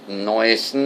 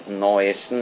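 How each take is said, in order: No difference in how they are said.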